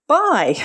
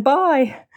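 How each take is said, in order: First: Put-on much higher, louder child's "Bye!" sung out; toddler's happy shout. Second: Put-on high, ringing toddler "Bye!"; ringing child's call. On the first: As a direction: copy a toddler yelling "Bye!". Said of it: "screamed out". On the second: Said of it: "this little one's voice ring out".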